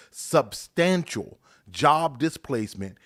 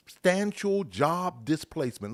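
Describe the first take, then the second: First: "substantial job displacement" slower and louder, set apart word by word; emphatic repeat. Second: Said in the usual way. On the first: Shown as a demonstration. Host repeats the article's warning to listeners, stressing "substantial job displacement". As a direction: punch "substantial" and "job", with a break before "displacement". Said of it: "Listen to this".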